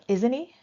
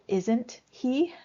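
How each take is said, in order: First: The words run together and the h is dropped. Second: Each word is said separately, with a clear h. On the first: "we kind of run it together and we may not pronounce that H" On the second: "In perfect English, we would say isn't he"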